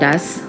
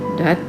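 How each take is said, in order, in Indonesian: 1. Kata ini berakhir dengan bunyi s. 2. Kata ini berakhir dengan bunyi t. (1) "bukan das" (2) "ini dat dibacanya"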